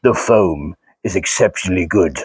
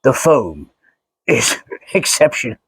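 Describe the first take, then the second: First: Darth Vader impression. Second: Lightly lowered, hesitant Vader try; half-hearted Vader voice that breaks into a laugh; Darth Vader impression. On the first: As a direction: go deep and grave like Vader. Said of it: "how would Darth Vader say this?". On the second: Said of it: "do a Darth Vader impression at the same time".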